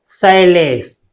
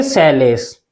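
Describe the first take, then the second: First: शैलेश slowly, first vowel split into a gliding "sha-ey-lesh"; two-matra reading. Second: शैलेश with the first vowel as one simple 'ai' sound, "shai-lesh"; one-matra reading. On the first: Teacher showing students the two-matra reading, gliding शैलेश. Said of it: "दो मात्रा से पढ़ेंगे". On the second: Teacher showing students the one-matra reading, single-vowel शैलेश. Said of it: "एक मात्रा से पढ़ेंगे". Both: Shown as a demonstration.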